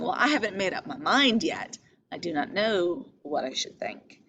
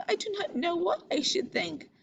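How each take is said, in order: First: Calm, measured, keeping her own counsel; composed, noncommittal reading of Ophelia; undecided. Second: High, soft and timid; meek, helpless reading of Ophelia; weak and unsure. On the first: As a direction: say it as if still weighing it up. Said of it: "I think she's saying". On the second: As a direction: shrink from the words as if unable to decide. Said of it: "a line of weakness". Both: Shown as a demonstration.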